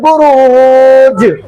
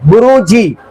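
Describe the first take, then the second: First: The word ends on a bare consonant. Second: The word ends with a short i vowel. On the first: The reader stops at the end of the verse. "जज्म दे दिए।" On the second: The reading continues without stopping. "इसी तरह वह बुरूजी है"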